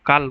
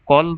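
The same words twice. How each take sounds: First: কাল said with an open long a; vowel contrast demo. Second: কল said slowly with a short rounded o; vowel contrast demo. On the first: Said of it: "এই দুটো বলল". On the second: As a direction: stretch কল out, clear rounded vowel. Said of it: "উদাহরণ যদি দিই". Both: Shown as a demonstration.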